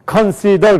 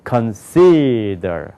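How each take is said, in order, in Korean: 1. 모든 음절을 강세 없이 평평하게 발음해요. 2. 한 음절에 분명한 강세가 있어요.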